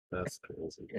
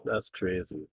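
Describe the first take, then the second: First: Breathy whispered repeat; whispered echo. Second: Said in the usual way. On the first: Real, not acted. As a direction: whisper it to yourself. Echoed reaction, said twice.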